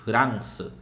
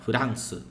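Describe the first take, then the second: No difference in how they are said.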